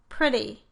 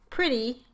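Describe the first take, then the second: First: The final vowel is a relaxed 'ih' sound. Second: The final vowel is a tense 'ee' sound. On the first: "with my lips more relaxed, more like for the I sound" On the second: "with E"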